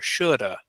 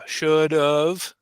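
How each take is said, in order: First: The 'have' shrinks to a single weak vowel. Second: The 'have' shrinks to a weak 'of' sound. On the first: "it gets even smaller" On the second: "we eliminate or kind of cut most of the word"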